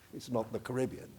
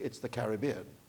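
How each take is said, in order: First: It uses the pronunciation heard in the US. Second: It uses the pronunciation heard in the Caribbean. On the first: This is how people in the United States say it. The speaker calls it wrong. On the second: This is how people in the region say it. The speaker calls it right. "in the Caribbean, it's the Caribbean"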